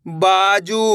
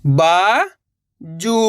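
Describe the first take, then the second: First: बाजू joined, long vowels; blended word. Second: बा, long pause, जू; बाजू split slowly, rising first syllable. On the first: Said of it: "तो मिलके बन जाएगा". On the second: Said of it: "एक अक्षर का उच्चारण करना है". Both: Shown as a demonstration.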